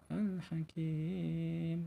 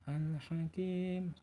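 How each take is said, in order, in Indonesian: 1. Huruf mad dibaca panjang empat harakat. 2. Huruf mad dibaca panjang dua harakat. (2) "dua rakaat"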